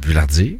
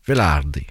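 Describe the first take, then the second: First: The name is said the French way. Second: The name is said the Italian way.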